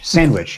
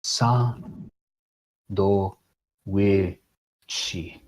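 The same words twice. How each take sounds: First: "Sandwich" blended into one smooth word, pitched up in recognition; the penny drops on "Sandwich"; word finally recognized. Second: "Sa, do, we, chi" read one halting syllable at a time, fading quieter; sounding out katakana. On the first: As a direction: say "Sandwich" whole with a happy lift. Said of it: "oh, it's sandwich". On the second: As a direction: spell it out slowly like a struggling reader. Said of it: "trying to read the sign in, in hiragana ... going, like". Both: Retold or imitated.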